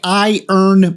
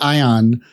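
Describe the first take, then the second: First: The second syllable has a long, full vowel. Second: The second syllable has a short, reduced vowel. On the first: The speaker calls it right. "It's more like I earn money" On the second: The speaker calls it wrong. "it's kind of like without the R. It's like ion"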